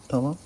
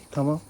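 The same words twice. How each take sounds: The two takes are said the same way.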